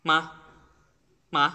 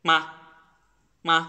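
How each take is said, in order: Both takes have the same delivery.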